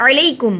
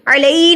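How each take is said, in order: First: "علیکم" with ei kept short, straight into kum; correct short glide. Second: "علی" with the ei dragged out; over-stretched ending. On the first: Teacher correcting learners, "علیکم" without stretching. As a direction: move promptly through the glide in "علیکم". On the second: Teacher showing the mistake, "علی" stretched at the end. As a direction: wrongly lengthen the glide in "علی". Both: Shown as a demonstration. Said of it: "علی نہیں پڑھیں گے".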